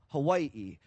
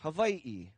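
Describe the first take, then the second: First: The middle consonant is a W sound. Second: The middle consonant is a V sound. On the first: This is how the speaker's family said it. "It was more so with the W" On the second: This is how some other lineages say it. "pronounce a W with a V sound"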